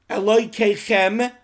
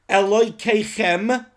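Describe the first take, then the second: Both takes have the same delivery.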